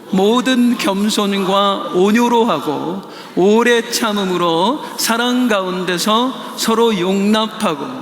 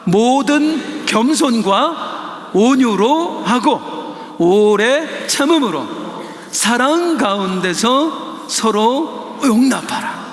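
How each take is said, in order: First: It is read at a normal pace. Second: It is read slowly and distinctly.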